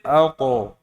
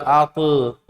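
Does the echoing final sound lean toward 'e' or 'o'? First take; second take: o; e. First: The bounced final sound is thick, like 'o'. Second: The bounced final sound is thin, like 'e'. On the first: The speaker calls it right. "maka bunyinya menjadi alto" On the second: The speaker calls it wrong. "Gak boleh dibaca alte"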